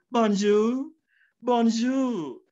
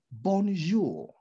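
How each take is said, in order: First: "Bonjour" said higher with a lilting French tune; a more French "bonjour, bonjour", pitched up; "bonjour" sung out the French way; French-sounding bonjour. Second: Said in the usual way. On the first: Shown as a demonstration. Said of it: "And someone says". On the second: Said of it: "So let's say".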